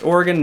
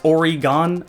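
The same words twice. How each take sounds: First: The last syllable is short and reduced, like 'gun'. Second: The last syllable is full and long, like 'gone'. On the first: The speaker calls it right. "yes, it's pronounced Oregon" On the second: The speaker calls it wrong. "it's not pronounced Oregon. How do you get Oregon? There's not an E at the end of it"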